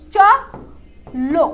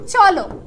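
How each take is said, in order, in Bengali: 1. শব্দটি অক্ষরগুলোর মাঝে একটু থেমে বলা হয়। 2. শব্দটি কোনো বিরতি ছাড়াই সাবলীলভাবে বলা হয়। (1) "এখানে তোমার গলাকে কয়বার থামতে হচ্ছে" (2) "যখন আমরা বলছি চলো"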